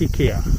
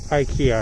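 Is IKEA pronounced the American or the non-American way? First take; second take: non-American; American. First: It is said without the American pronunciation. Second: It is said with the American pronunciation.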